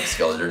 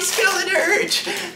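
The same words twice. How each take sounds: First: The name is said in a flat monotone. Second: The name is said with lively excitement. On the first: The card has been pulled too many times. "Monotone voice" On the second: The card feels new and thrilling. "wow, my boy"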